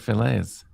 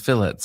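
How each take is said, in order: First: It is said with a French pronunciation. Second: It is said with an English pronunciation.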